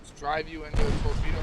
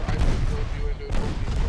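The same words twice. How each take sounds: First: Loud exasperated complaint; frustrated. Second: Louder exasperated self-blame; frustrated. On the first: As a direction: vent at the blunder, loud. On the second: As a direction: hammer home the blunder, louder. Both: Real, not acted. Frustrated after hitting torpedo.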